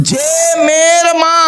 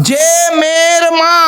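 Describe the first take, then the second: The two takes are said the same way.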